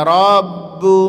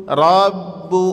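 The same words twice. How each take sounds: The two takes are said the same way.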